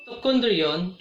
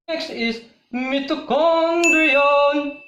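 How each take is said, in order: First: Said in the usual way. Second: Higher, loud and slow reveal; booming announcement. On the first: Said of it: "repeats term plainly". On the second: Shown as a demonstration. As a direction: boom out the next topic slowly. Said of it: "loud drawn-out announcement".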